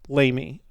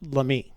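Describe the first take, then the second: First: The name is given an English-style pronunciation. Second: The name is given a French-style pronunciation. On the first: This is how people commonly say it. The speaker calls it wrong. "people pronounce it Lamy" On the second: This follows the name's French origin. The speaker calls it right. "but it's French. So it's actually pronounced Lamy"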